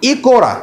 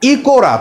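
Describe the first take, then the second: No difference in how they are said.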